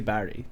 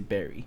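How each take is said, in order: First: It is said in a non-American way. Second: It is said in an American way. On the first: "they don't say Barry" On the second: "they say Berry"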